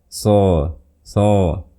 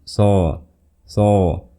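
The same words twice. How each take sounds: Both takes have the same delivery.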